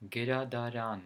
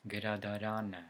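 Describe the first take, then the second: First: "gradaran" with the stress on final RAN; stress on last syllable. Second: "gradarana" stressed on RAN, with a light unstressed final uh; stress before final A. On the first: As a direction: say "gradaran" louder and carefully, landing on the last syllable. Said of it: "The stress falls into the last syllable". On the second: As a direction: say "gradarana" stressing the next-to-last syllable, ending on a weak schwa. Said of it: "the stress falls one syllable before A". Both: Shown as a demonstration.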